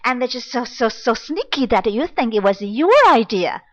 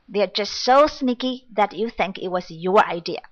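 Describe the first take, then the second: First: It is said with emotion and fast repeats. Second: It is said flatly, without emotion.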